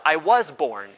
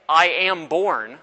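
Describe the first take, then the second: First: Corrective weight on "was"; slower "I was born", leaning on "was"; stress on WAS. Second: Slow, deliberate "am" as the wrong wording; stress on AM. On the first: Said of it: "No, I was born". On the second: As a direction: draw out "I am born", weighting "am". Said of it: "I don't say". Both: Shown as a demonstration.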